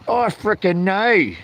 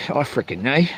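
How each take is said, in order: First: Frickin' drawn out, slow; I frickin' know with frickin' held long. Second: Said in the usual way. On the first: Pretend. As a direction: stretch the word frickin' slowly. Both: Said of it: "I frickin' know".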